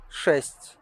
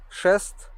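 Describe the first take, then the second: First: "шесть" ending on a palatalized, breath-released T; soft T. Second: "Шест" ending on a hard T, pitched higher. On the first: Teacher demonstrates tongue position, soft T in "шесть". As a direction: exhale through the soft T of "шесть". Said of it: "exhale a bit stronger". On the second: Teacher demonstrates tongue position, hard T in "Шест". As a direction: close "Шест" with unsoftened consonants. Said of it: "soft and hard T sound". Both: Shown as a demonstration.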